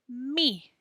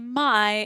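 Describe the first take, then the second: First: The vowel sounds like 'ee'. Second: The vowel sounds like 'eye'. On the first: The speaker calls it right. "it says me" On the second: The speaker calls it wrong. "doesn't say my"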